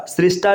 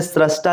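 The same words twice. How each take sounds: First: सृष्टा said as "srishtaa", with ri; wrong vowel. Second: सृष्टा said as "srashtaa", with ra; correct vowel. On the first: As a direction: put an "i" after the r in सृष्टा. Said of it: "नहीं लिखा जाता है". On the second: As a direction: put an "a" after the r in सृष्टा. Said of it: "लिखा जाता है". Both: Shown as a demonstration.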